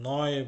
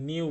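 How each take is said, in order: First: The word sounds like 'noy'. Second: The word sounds like English 'new'. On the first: The speaker calls it right. "আমি নয় বলছি" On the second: The speaker calls it wrong. "আমি কিন্তু নিউ বলছি না"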